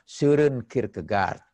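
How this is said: The name is said with a German pronunciation. "Kita mengikuti ejaan bahasa Jermannya dan pengucapan bahasa Jerman"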